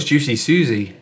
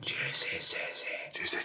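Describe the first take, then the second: First: Put-on a light Scottish accent on "Juicy Susie". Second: Slow, much softer whispered "Juicy Susie". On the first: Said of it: "If you do it in a Scottish voice". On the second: Acted. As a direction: breathe "Juicy Susie" out slowly as a secret whisper. Whispered take of the name.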